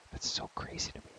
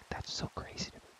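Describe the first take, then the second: No difference in how they are said.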